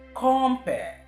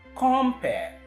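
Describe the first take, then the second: First: The stress is on the first syllable. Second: The same.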